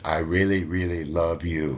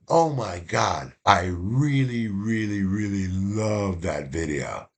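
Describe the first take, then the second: First: Lightly imitated gushing confession; gushing student. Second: Slow, drawn-out gushing; a mild imitation of a gushing student. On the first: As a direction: lean into the really like a smitten student. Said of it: "the exact same way she said". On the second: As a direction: stretch each really like a smitten student. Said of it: "the way she said".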